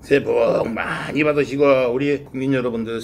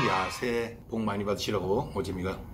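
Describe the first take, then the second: First: Bow and wish it warmly; formal greeting. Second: Said in the usual way. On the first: Real, not acted. Formal new year bow.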